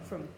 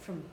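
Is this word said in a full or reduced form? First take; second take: reduced; reduced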